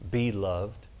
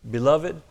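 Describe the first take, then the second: First: It is said as two separate words. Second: It is said as a single word. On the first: It tells the listeners to let themselves be loved. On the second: It names the listeners as dear ones.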